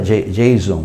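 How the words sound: The name is said with Brazilian Portuguese pronunciation. "o pessoal fala Jason"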